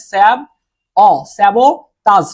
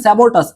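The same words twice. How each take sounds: First: স্যাবোটাস broken slowly into স্যাব, অ, টাস; slow teaching pronunciation of স্যাবোটাস in separated chunks; syllable-by-syllable pronunciation. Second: Said in the usual way. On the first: Shown as a demonstration. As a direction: sound out স্যাবোটাস piece by piece, with pauses. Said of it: "অনেকে উচ্চারণটা আসলে করতে পারবে না". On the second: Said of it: "Bangla উচ্চারণটা অনেকটা এরকম".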